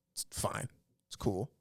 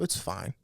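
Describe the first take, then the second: First: Breathy whisper of "It's fine."; whispered aside. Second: Said in the usual way. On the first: Real, not acted. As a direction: repeat "It's fine." under the breath, voiceless. Repeats it, second time whispered.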